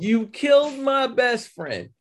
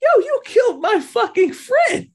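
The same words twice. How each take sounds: First: Dragged-out accusing line, a touch higher; slow mock accusation. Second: High, loud outraged yell; angry shout. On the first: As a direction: lay the blame slowly. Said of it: "on some old". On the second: Retold or imitated. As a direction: scream it at him, furious. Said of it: "and she's like".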